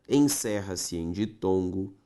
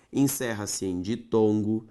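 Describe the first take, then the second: No difference in how they are said.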